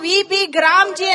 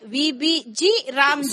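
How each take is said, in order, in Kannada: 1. G ಒಂದೇ ಪದವಾಗಿ ಸೇರಿದೆ, 'Gramji'. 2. G ಒಂದು ಪ್ರತ್ಯೇಕ ಅಕ್ಷರ, 'Ramji' ಗಿಂತ ಮೊದಲು ಬರುತ್ತೆ. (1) "ಯಾಕೆ ನೀವು ವಿ ಬಿ ಗ್ರಾಮ್ಜಿ ಅಂತ ... ಓದಬಾರ್ದು?" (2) "ಹಿಂಗೆ ನೀವು ಓದೋದೇ ಹೀಗೆ"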